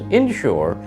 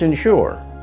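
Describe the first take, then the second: First: Said with the Arkansas pronunciation. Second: Said with the Northeastern US pronunciation. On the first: "But in Arkansas, for example, it's inshore" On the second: "In the Northeast ... it's insure"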